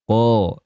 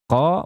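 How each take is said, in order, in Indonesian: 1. Bunyi q itu tebal dan berat. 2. Bunyi q itu tipis dan ringan. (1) "harusnya lebih tebal lagi" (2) "Qa belum tebal"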